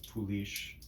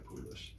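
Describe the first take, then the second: First: The word is said with a French pronunciation. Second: The word is said with an English pronunciation. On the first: "In French it's Poulish" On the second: "In English people just say Poolish"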